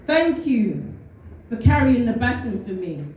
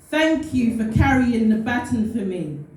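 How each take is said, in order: Both takes have the same delivery.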